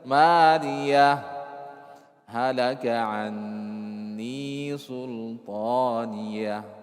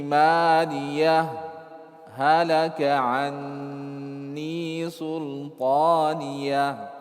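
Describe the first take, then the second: First: The voice stops fully after maliyah. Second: A brief silent pause comes without a breath. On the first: "Baca jelas. Hak yang pertama kita baca, kemudian berhenti" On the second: "kita berhenti tidak mengambil nafas. Itu sakta namanya"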